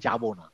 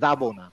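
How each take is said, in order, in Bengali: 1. প্রথম শব্দটি j ধ্বনি দিয়ে শুরু হয়। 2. প্রথম শব্দটি y ধ্বনি দিয়ে শুরু হয়। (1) "আমরা বলি যাব না" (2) "যাব না বলি না"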